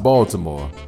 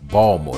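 First: It is said with a standard general pronunciation. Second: It is said with a local Baltimore accent. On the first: "not Baltimore" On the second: "that's what they say when you're from Baltimore"

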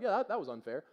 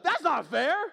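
First: It is said calmly and matter-of-factly. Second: It is said in an upset, whining way.

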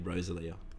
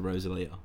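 First: The stress is on the first syllable. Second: The stress is on the third syllable. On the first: "It was on the O" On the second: "So that's when you put the emphasis"

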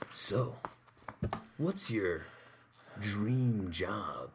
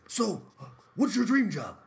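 First: It is said in a creepy date voice. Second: It is said in a Funkhauser impression voice.

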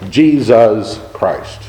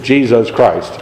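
First: Each syllable is said separately with breaks. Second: The words are said smoothly as one phrase.

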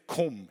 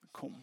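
First: The word is said as a sharp command. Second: The word is said softly with longing. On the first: It is an order given to the spirit. The speaker calls it wrong. "Det är inte en befallning. Det är inte kom" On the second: It expresses a heartfelt longing for the spirit. The speaker calls it right. "uttryck för min längtan. Det är mer kom"

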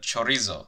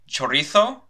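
First: The z is pronounced like s. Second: The z is pronounced like th.

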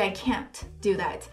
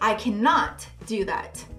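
First: The negative is contracted to 'can't'. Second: The negative is said in full as 'cannot'. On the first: A plain, neutral refusal. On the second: The refusal is emphasized.

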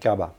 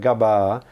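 First: The final vowel is cut short. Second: The final vowel is held long. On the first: This is a newer, changed way of saying it. "over time people say it gaba" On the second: This is the older way of saying it. "words which have a long vowel sound at the end"

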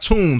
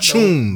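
First: The word begins with a plain 't' sound. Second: The word begins with a 'ch' sound. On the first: The speaker calls it wrong. "Not T-U" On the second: The speaker calls it right.

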